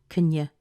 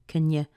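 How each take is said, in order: Both takes have the same delivery.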